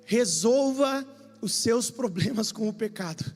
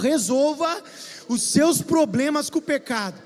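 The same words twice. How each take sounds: First: It is said in a plain, calm voice. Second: It is said forcefully, with great intensity.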